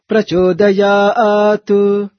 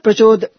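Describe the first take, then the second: First: The final t is released with a slight u. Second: The final t is cut off abruptly. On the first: The speaker calls it right. "with a little tinge of tu for it" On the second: The speaker calls it wrong. "such syllables should be chanted not abruptly. It's not Prachodayat"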